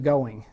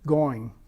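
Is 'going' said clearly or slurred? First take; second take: clearly; slurred. First: The word is said clearly with two distinct syllables. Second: The word is slurred into one long gliding vowel. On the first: "I prefer to pronounce it going" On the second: "it's slurred into a long diphthong frequently"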